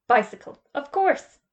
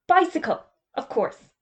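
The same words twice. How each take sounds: First: Bicycle flat and loud, course lifting high in doubt; sceptical echo. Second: Bicycle jumps high and loud, of course falls off; hasty correction. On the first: Mister Potter echoing Mister Magica's excuse, doubting. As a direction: repeat it back disbelieving. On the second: Mister Magica correcting his slip to the headmaster, hastily. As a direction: cover the slip quickly. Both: Acted.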